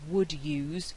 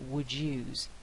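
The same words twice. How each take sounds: First: The d and y stay separate sounds. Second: The d and y merge into j. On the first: "instead of would use" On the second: "we get would use"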